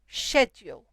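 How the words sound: It is said with a British pronunciation. "here in the U K, we say schedule"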